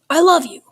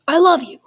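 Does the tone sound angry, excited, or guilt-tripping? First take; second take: angry; angry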